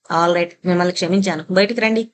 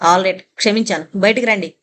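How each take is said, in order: First: A mild try at gentle, kind forgiveness; as gently as possible. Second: Loud, curt forgiveness called to the door; said loudly. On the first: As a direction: soften the pardon as the boys demand. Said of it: "వీలైనంత సౌమ్యంగా". (పిల్లలు కోరినట్లు సౌమ్యంగా క్షమించడం) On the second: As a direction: bark the pardon at the closed room, mildly. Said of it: "బిగ్గరగా అన్నాడు". (తలుపు వైపు బిగ్గరగా క్షమాపణ) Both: A narrator's reading.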